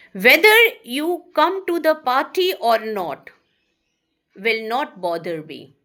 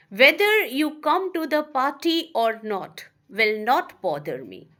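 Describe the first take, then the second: First: Louder, emphatic reading of the example; loud classroom example read. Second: Said in the usual way. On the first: Shown as a demonstration. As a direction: announce the example sentence firmly. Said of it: "teacher reads example sentence". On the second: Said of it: "teacher rereads example sentence".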